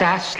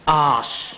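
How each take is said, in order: First: The vowel is short, as in 'as'. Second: The vowel is long, as in 'arse'. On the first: The speaker calls it wrong. "Not as" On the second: The speaker calls it right.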